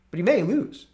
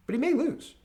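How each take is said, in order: First: Mock high. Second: Much higher mock "may lose". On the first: Repeated mock. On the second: Mocking those who say Trump lost, in a high voice. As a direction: sneer it up high.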